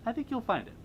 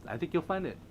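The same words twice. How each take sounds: First: Lilting up high; high-pitched reassurance. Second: Said in the usual way. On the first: Real, not acted. Host encouraging a fan to regain their spark, high-pitched. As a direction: repeat it in a high little voice. Same reassurance repeated much higher.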